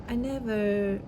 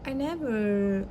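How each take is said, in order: Both takes have the same delivery.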